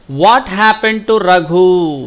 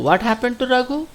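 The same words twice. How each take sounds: First: Slow, drawn-out reading of the question. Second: Quick, high and rising; quick prompting question. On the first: Teacher reads the worksheet question to pupils, slow and drawn out. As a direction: read it out slowly and firmly for the class. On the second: Teacher prompts pupils for the answer, quick rising question. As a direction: ask it fast with a high lift at the end. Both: Shown as a demonstration.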